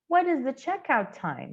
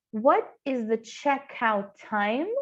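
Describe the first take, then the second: First: Said in the usual way. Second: Slow, careful "What" without a final T; slow correct model. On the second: Shown as a demonstration. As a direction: say it slowly, no T on "What". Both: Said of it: "Esse ti simplesmente não existe".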